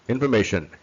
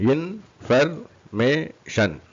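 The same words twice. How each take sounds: First: Said in the usual way. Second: Very slow, higher IN - FER - MAY - SHUN; four separate raised beats on information; syllable by syllable. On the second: Shown as a demonstration. Teacher demonstrates four syllables, syllable by syllable.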